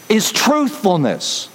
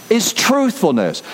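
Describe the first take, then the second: No difference in how they are said.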